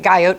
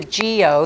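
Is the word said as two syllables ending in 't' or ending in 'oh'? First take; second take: ending t; ending oh. First: It is said like 'guy-ot', ending in t. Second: It is said like 'gee-oh', ending in a vowel. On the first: The speaker calls it wrong. "It looks like guyot" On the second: The speaker calls it right. "but it's a geo. That's how you pronounce it"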